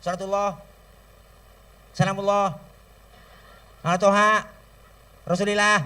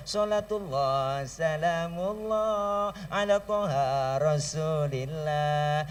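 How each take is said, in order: First: Shouted, tuneless blessing in separate bursts; just bark it out with no tune; loud sholawat without melody. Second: Slow, sung sholawat melody; sung, hadroh-style sholawat. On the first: Preacher showing sholawat without hadroh, loud and tuneless. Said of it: "Coba baca sholawat kenceng doang". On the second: Preacher showing sholawat sung with hadroh. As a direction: sing it sweetly and draw it out. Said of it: "Tapi kalau pakai hadroh". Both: Shown as a demonstration.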